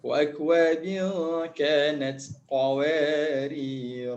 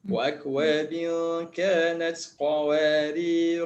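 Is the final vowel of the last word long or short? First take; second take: long; short. First: The last word ends in a lengthened vowel. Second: The last word ends in a short vowel. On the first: The reading stops at this word. "kalau kita berhenti, kita kena baca, kena panjang dua harakat" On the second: The reading continues into the next words. "Kalau kita sambung, alif ni tidak dibaca"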